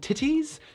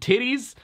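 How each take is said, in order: First: The middle T is a crisp, fully released T. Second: The middle T is a soft, D-like tap. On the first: "You don't say titties" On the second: "You say"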